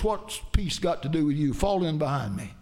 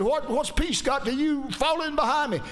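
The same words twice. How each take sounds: First: Said in the usual way. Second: Much higher, insistent retold command; raised-voice retort. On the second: Jehu orders the second rider behind him, raised-voice retort. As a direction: pitch it up high, acting out a commander's retort.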